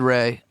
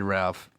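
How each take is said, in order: First: The name ends on the vowel, no consonant. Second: The name has an L and ends in F. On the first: "He said Ray" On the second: "I said Ralph"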